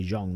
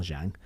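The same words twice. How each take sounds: First: Zhang said like "Zhong", with a rounded vowel; broadcast pronunciation. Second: Zhang said with a flat "a", rhyming with "bang"; rejected pronunciation. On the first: Commentator shows the broadcast way, Zhang said as "Zhong". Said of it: "I was told to say Zhang". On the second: Commentator shows the way to avoid, Zhang rhyming with "bang". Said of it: "not Zhang". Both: Shown as a demonstration.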